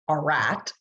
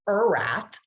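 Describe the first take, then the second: First: The word starts with a drawn-out 'ar' sound. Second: The word starts with a drawn-out 'er' sound. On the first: "We don't say R at" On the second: "We don't say er at"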